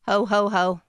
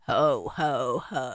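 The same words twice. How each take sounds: First: It is said in a higher voice. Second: It is said in a deeper voice.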